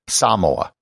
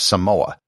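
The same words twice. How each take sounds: First: The first syllable is stressed with a long vowel. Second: No syllable gets any special emphasis. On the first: The speaker calls it right. "putting the accent on the first syllable and using an elongated A" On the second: The speaker calls it wrong. "Most people will pronounce it without any emphasis"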